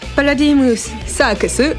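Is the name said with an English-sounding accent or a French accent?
English-sounding. The name is said with an English-sounding accent.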